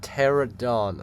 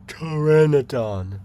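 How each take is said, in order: First: The name is said with three syllables. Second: The name is said with four syllables. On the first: The speaker calls it wrong. "not pterodon. Stop mispronouncing them" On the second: The speaker calls it right.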